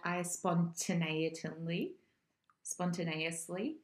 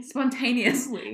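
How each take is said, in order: First: "spontaneously" mangled as spon-tuh-nay-uh-slee; fumbled word. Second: "spontaneously" said correctly as spon-TAY-nee-us-lee, louder; slow, emphatic "spontaneously" with stressed TAY; corrected pronunciation. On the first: Friend hunting for the word "spontaneously", mispronouncing it uncertainly. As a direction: stumble slowly through "spontaneously", adding muddled syllables. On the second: Friend echoing the correction, "spontaneously" pronounced spon-TAY-nee-us-lee emphatically. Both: Real, not acted. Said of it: "can speak properly".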